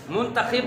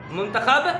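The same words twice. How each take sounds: First: मुंतखिब ending in "-khib"; short i after the kh in मुंतखिब; mispronunciation demo. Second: मुंतखब ending in "-khab"; short a after the kh in मुंतखब; correct pronunciation. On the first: Teacher showing pupils the error, mispronunciation demo. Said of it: "मुंतखिब गलत". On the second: Teacher showing pupils the fix, correct pronunciation. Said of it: "दुरुस्त है". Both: Shown as a demonstration.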